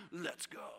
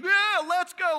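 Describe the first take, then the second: First: Low, hushed, understated urging; quiet call. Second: High, loud hyped-up rally cry; rousing anthem. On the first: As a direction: say it low, as if to companions nearby. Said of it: "Jesus looking around". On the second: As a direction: shout it like a team anthem. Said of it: "that's, like, our anthem". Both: Acted.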